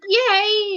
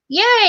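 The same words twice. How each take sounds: First: It is said flatly, with little pitch movement. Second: It is said brightly, with lively rising pitch. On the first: The excitement does not show to others. The speaker calls it wrong. "I speak in such a monotone way ... rather than just be like" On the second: The excitement is made visible to others. The speaker calls it right. "actually show that you're excited"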